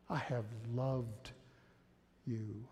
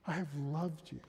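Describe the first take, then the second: First: Tender slow reading. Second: Said in the usual way. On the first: Shown as a demonstration. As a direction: say it gently, as God speaking to you. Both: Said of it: "hear God's voice here".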